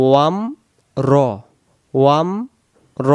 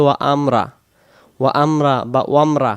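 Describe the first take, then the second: First: "ওয়াম" closed on m, pause, heavy "র"; two careful beats, "ওয়াম" then "র"; correct rounded ro. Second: "ওয়া আমরা" split in two, open raa; "ওয়া আমরা" with a separate am and unrounded ending; common mispronunciation. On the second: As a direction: say "ওয়ামরা" with a light r and flat a. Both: Shown as a demonstration. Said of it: "রা হবে না".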